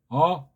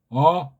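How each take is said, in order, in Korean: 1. 모음은 코 뒤쪽 높은 곳에서 울려요. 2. 모음은 코 뒤쪽 높은 곳에서 울려요.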